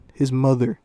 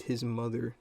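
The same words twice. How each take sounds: First: "His mother" very loud, in disbelief; incredulous emphasis. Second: Said in the usual way. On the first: Real, not acted. Second incredulous repeat, louder still.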